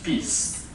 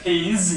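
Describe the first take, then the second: First: The final sound is a voiceless s. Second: The final sound is a voiced z. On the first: The speaker calls it wrong. "final D voicing" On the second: The speaker calls it right. "instead of peas"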